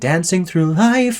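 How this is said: Dancing has the American short flat a vowel. "make him sing with American vowels"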